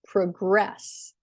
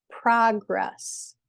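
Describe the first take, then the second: First: ProGRESS, the verb, last syllable strong; "progress" with weak first beat, long stressed second. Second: PROgress, the noun, first syllable strong; "progress" with stressed first beat, lighter second. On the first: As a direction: reduce the first syllable and lean on GRESS in "progress". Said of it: "the second syllable is stressed". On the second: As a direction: slowly lean on PRO in "progress". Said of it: "the first syllable is stressed". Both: Shown as a demonstration.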